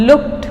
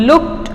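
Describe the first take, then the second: No difference in how they are said.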